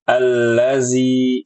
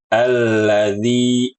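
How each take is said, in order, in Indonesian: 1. Konsonan tengahnya bunyi z. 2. Konsonan tengahnya bunyi dh. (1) "diubah huruf zalnya menjadi huruf zai" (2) "Harusnya alladzi"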